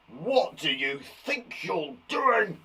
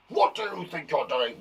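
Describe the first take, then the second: First: Slow, stern mock-angry teacher. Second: Quicker, lightly voiced cross teacher; a hint of a stern teacher telling off; angry teacher. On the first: Teacher scolding pupils who misbehave, mock-angry. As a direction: scold the class like a cross teacher. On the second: Teacher catching pupils misbehaving, mild mock anger. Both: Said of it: "That was, uh, an angry teacher".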